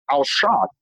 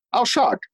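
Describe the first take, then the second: First: Said in the usual way. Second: I was shocked, pitched high on the repeat; higher, insistent I was shocked; emphatic repeat. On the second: Real, not acted. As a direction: lean hard into shocked the second time.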